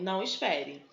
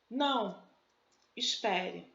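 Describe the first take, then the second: First: The two words run together without a pause. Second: There is a pause after the first word. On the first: The listener is told not to wait. "E depois eu tenho não espere" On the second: The listener is told to wait. "Então eu tenho não, espere"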